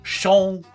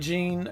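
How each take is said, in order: First: The name is pronounced the French way. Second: The name is pronounced the English way.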